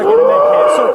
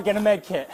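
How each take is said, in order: First: Loud urgent bark, high pitched; man down shout. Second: Said in the usual way. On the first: Real, not acted. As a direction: yell the order across the scene. Officer repeats order, urgent.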